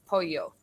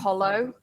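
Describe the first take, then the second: First: It is said with a Spanish pronunciation. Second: It is read out as an English speaker would. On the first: This is how it is said in Spanish. The speaker calls it right. "But I know in Spanish it's pollo" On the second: This is how English speakers read it from the spelling. The speaker calls it wrong. "So they'll say polo because that's what it looks like"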